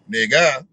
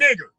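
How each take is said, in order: First: The word ends in an open 'ah' vowel. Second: The word ends in a hard 'er' sound. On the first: "it might be a A H" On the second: "the hard E R"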